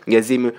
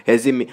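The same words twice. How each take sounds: The two takes are said the same way.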